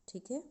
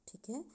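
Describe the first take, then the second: No difference in how they are said.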